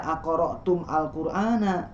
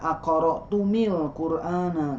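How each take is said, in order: First: The m has no vowel before al. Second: The m is followed by an i vowel. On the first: "tidak dibaca akoro tum al Qur'ana" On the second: "juga tidak dibaca"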